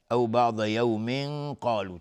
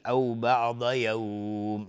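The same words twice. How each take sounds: First: Slow, joined reading, "یوم" ending in a held nasal before "قالو"; continuing with ikhfa. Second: Slow, with "یوم" drawn out before stopping; pausal madd. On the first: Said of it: "اگر عبور بکنیم". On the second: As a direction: stretch the vowel glide in "یوم" and close on m. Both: Shown as a demonstration.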